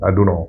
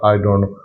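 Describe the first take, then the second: First: The words are run together as "dunno". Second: Each word is said fully and separately. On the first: The speaker calls it right. "Native language वाला बोलेगा डू नो" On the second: The speaker calls it wrong. "पर वो ऐसे नहीं बोलेगा"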